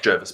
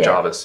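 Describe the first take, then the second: First: The first vowel sounds like 'er'. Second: The first vowel sounds like 'ar'. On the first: It is read the way it is spelled. The speaker calls it wrong. "every time I read it, I'm like, Jervis Bay. Yeah. No" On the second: It is the accepted local pronunciation. The speaker calls it right. "I think you're supposed to say Jarvis"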